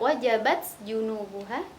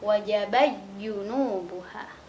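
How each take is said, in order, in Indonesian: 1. Bunyi t diucapkan jelas sebelum kata berikutnya. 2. Bunyi t menyatu dengan konsonan setelahnya. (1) "Kalau idhar" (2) "Kalau idgham"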